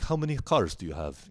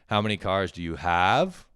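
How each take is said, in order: First: The questioning tune runs through the whole sentence. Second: The pitch rises only on the last words.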